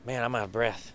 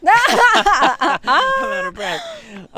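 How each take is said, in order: First: Said in the usual way. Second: Breathless laugh, high and loud. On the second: Real, not acted. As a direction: laugh it out, very slowly.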